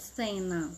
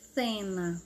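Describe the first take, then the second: First: The first consonant is a th sound. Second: The same.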